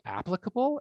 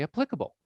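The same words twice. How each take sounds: First: "applicable" stressed on AP, first syllable strong. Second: "applicable" stressed on PLIC, weak first syllable; stress on second syllable. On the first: Teacher offering the class a choice, "applicable" with stress up front. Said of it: "do we say applicable or do we say". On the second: Teacher offering the class a choice, "applicable" stressed on its second syllable. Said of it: "or do we say applicable". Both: Shown as a demonstration.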